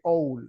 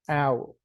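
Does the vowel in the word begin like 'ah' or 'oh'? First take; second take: oh; ah. First: The vowel begins with an 'oh' sound. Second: The vowel begins with an 'ah' sound. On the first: The speaker calls it wrong. "I see an O in there, and I'm going to say owl" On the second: The speaker calls it right. "like in Spanish, a"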